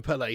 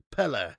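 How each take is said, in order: First: Pele said PEL-ay with an ay ending; Pele, the usual British ay ending. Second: Pele said PEL-uh with an uh ending; Pele, end on uh not ay; Pele, ending like air; proper Pele. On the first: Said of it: "But we call him Pele". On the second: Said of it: "the way it's supposed to be pronounced is Pele". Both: Shown as a demonstration.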